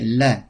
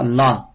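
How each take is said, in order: First: La with the light Arabic lam; correct Arabic la. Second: La with the French L placement; wrong French la. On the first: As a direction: model la the Arabic way. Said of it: "En arabe, c'est la". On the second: Teacher showing students the wrong French-style la. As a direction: show la the way French speakers wrongly say it. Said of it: "On dit pas la". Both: Shown as a demonstration.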